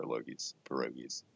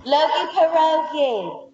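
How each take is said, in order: First: Soft and low, teasing. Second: Put-on slow, high Brooklyn accent. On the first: Acted. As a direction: murmur the nickname playfully. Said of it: "I got one". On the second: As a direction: drawl it out Brooklyn style. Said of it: "you did it in, like, a Brooklyn accent".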